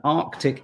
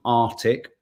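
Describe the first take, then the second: First: ARCTIC slow, with the first C sounded, ARK-tik; careful Arctic. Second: ARCTIC without its first C, AR-tik; wrong Arctic. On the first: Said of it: "An Arctic isn't Arctic". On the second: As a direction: drop the middle K from Arctic. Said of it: "isn't Arctic". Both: Shown as a demonstration.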